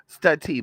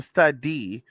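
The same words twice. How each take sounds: First: "study" said as stud-TEE, with a hard T; emphatic T sound. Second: "study" said as stud-DEE, with a D; corrected D sound. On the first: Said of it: "but still, study". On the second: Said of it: "Well, study". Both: Shown as a demonstration.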